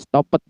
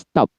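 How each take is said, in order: First: The ending is said as an extra syllable. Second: The ending is said as a plain t. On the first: The speaker calls it wrong. "bukan stopped begitu" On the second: The speaker calls it right. "akhirannya T"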